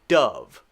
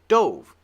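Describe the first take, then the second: First: The vowel is a short U sound. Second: The vowel is a long O sound. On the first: "So the pronunciation is dove, just like D U V" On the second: It is the past of dive. "This one should be long, right?"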